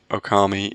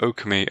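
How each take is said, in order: First: The name is said the usual English way. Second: The name is said like the title-screen voice. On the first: "if you're an English speaker, then Okami is kind of the accepted pronunciation" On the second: "you get that little voice that says Okami, and I went with that"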